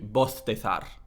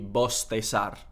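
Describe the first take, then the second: First: Both the s and the z sound like th. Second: Both the s and the z sound like s. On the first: "Ceceo, everything is a th sound" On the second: "ceseo, everything is an S sound"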